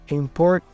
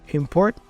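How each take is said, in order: The two takes are said the same way.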